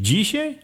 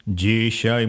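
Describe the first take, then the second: First: Dzisiaj asked with a sharp high rise; surprised question. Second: Said in the usual way. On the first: Acted. Villagers asking the old beggar, surprised high question. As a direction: pitch Dzisiaj up in disbelief.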